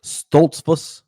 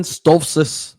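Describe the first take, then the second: First: "Stoltzfus" sounded out as STOLTS-pus; retry "Stoltzfus" with a clear L-T-S; "Stoltzfus" said carefully, middle consonants sounded; careful corrected pronunciation. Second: "Stoltzfus" blurred into STOHF-sus; mispronounced surname. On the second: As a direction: stumble on "Stoltzfus", dropping the L and T. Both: Real, not acted. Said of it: "pretty sure I said that wrong".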